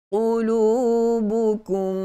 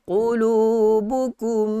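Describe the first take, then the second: The two takes are said the same way.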